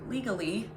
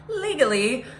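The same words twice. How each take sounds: First: Said in the usual way. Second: Legally said higher and louder, rising; legally punched up, rising tune; stress on legally. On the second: Shown as a demonstration. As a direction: lean hard on legally with a lift. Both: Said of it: "let me just stress that word again".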